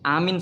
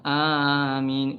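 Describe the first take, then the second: First: Both vowels in the word are short. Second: Both vowels in the word are long. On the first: It means safe. The speaker calls it wrong. "alifnya pendek, minnya pendek" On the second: It means grant our prayer. The speaker calls it right. "alifnya panjang, mimnya panjang"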